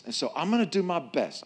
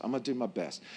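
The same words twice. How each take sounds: First: Said in the usual way. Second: Quiet aside. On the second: Shown as a demonstration. Repeat dropped to a low aside.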